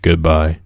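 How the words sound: It sounds glum and unhappy.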